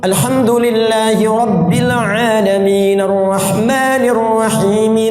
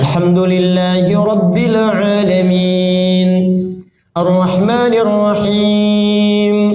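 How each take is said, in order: First: The verses run together without a pause. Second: There is a short pause between the verses. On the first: "bacanya wisal, nyambung" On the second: "memberikan jeda setiap bacaan ayatnya"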